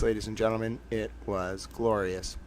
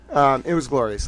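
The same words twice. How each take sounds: First: Hushed dramatic. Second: Said in the usual way. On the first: Pretend. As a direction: savour it, almost a murmur. Repeats the line for effect.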